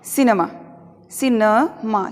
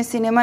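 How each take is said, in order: First: सिनेमा with a short schwa in the middle; सिनेमा with weakened middle vowel; corrected pronunciation. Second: सिनेमा with a full "ay" in the middle; सिनेमा with clear middle E; wrong pronunciation. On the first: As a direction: say सिनेमा as "si-nuh-maa". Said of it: "थोड़ा सा इसको सुधार करके बोलना है". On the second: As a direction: say सिनेमा as "si-nay-maa". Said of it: "सिनेमा नहीं बोलना है". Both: Shown as a demonstration.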